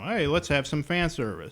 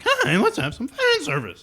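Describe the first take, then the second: First: The voice stays steady and flat. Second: The voice cracks in a put-on way.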